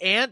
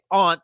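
First: The word sounds like the insect 'ant'. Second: The word sounds like 'ahnt' with an open vowel. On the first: "if you say aunt, type in A-N-T" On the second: "If you say aunt, type in A-U-N-T"

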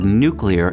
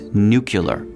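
First: The ending sounds like 'clear'. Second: The ending sounds like 'cular'. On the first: "the pronunciation of the word nuclear" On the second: "as nuclear. It gets on their nerves"

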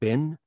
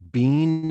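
First: The word has a short 'i' vowel. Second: The word has a long 'ee' vowel. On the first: It is what American listeners expect. The speaker calls it right. "instead of" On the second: It sounds odd to American listeners. The speaker calls it wrong. "he said some words that were really weird"

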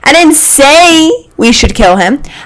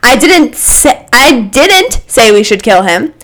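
First: The stress falls on the word 'say'. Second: The stress falls on the word 'didn't'.

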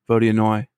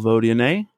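First: The name ends with an 'oy' sound. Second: The name ends with an 'ay' sound. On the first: The speaker calls it right. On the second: The speaker calls it wrong.

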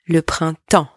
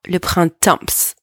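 First: The P and S sounds are silent. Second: The P and S sounds are pronounced. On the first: The speaker calls it right. "The P and the S are silent here" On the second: The speaker calls it wrong. "It's not le printemps"

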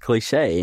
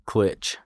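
First: The word is said as two syllables, clee-shay. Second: The word is said as one syllable, clitch. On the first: The speaker calls it right. "But it's cliche" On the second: The speaker calls it wrong. "I thought that it said clitch"

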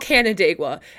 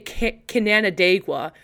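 First: The name does not begin like 'Canada'. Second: The name begins like 'Canada' plus 'igua'. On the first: The speaker calls it right. "it's called Canandaigua" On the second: The speaker calls it wrong. "I would say Canandaigua. So I thought it was, like, Canada, but with, like, Igua"

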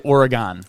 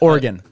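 First: The word does not sound like 'organ'. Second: The word sounds like 'organ'. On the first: The speaker calls it wrong. "We used to say Oregon. Yeah, and that's wrong" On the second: The speaker calls it right. "Oregon, like an organ"

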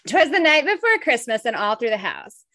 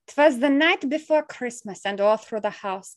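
First: It is read in the speaker's normal accent. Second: It is read in a put-on Russian accent. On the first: "I can't do the accent" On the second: "Should I do like a Russian accent?"

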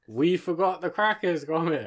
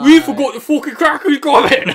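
First: A Wallace impression with a mild northern accent. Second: An exaggerated, thick northern accent.

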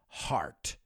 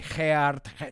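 First: The word is said with a standard vowel. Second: The word is said with a distorted vowel. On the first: The speaker calls it right. "They say everything but heart" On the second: The speaker calls it wrong. "a lot of my students mispronounce the word heart. They say heart"

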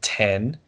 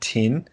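First: It is said in the speaker's own accent. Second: It is said in a New Zealand accent.

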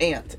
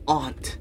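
First: The vowel sounds like the one in 'ant'. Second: The vowel is an open 'aw' sound. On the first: The speaker calls it wrong. "It's not aunt" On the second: The speaker calls it right. "It's aunt"

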